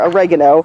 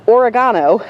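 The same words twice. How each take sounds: First: The word is pronounced the American way. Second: The word is pronounced the British way.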